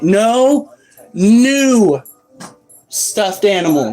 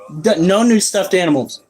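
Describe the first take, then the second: First: Each word is pronounced carefully and separately. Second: The words run together, sounding like 'nude stuffed'. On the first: The speaker calls it right. "Let me enunciate" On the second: The speaker calls it wrong. "That came out sounding like no nude stuffed animals"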